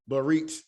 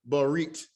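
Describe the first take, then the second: No difference in how they are said.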